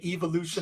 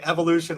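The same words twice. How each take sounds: First: It is said with a British pronunciation. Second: It is said with an American pronunciation. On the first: "they say evolution" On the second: "when we say evolution"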